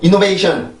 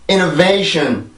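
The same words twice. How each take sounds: First: All syllables are even, with no stress at all. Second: Some syllables are stressed, giving a clear rhythm.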